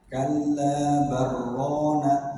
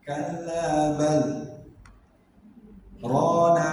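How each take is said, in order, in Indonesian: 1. Kata-katanya menyambung tanpa jeda. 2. Ada henti panjang setelah 'bal'. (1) "Jadi tanpa sabta" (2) "Berhentinya nggak boleh lama-lama ya. Nggak boleh gini"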